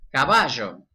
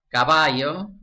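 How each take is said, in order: First: The double-L sounds like English sh. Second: The double-L sounds like English y.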